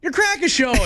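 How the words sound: It sounds congratulating and cheerful.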